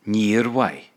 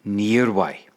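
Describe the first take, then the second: First: «Níor mhaith.» repeated as "neer wy", falling; learner repeats. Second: Irish «níor mhaith» said as "neer wy", stress on níor; Irish model phrase. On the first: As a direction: echo the teacher's «Níor mhaith». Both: Shown as a demonstration. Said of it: "Yeah, níor mhaith".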